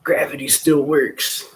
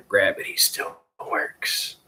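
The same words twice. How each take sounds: First: High, slow goofy voice; silly high-pitched mock wonder; goofball. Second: Slow, voiceless goofy delivery; mock-mysterious, breath only; goofball. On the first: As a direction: pitch it way up and drag it out. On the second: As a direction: drag it out in a silly stage whisper. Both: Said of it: "why I'm being a goofball".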